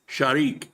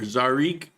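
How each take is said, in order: First: The name does not begin with a z sound. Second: The name begins with a plain z sound. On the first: The speaker calls it right. "but no, it's Shariq" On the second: The speaker calls it wrong. "you would think it would be Zarik"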